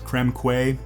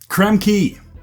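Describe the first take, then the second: First: The final syllable is not said as 'kee'. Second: The final syllable is said as 'kee'. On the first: The speaker calls it wrong. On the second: The speaker calls it right.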